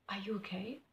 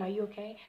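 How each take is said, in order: First: Soft, whispery careful question; hushed concern. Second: Said in the usual way. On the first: Retold or imitated. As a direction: check on a friend under your breath. Retold check on upset friend.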